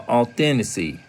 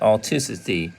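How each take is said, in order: First: The word is said with the 'then' syllable. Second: The word is said without the 'then' syllable. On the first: The speaker calls it right. "Now that may be right. Correct" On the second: The speaker calls it wrong. "Some some people now that may not be right"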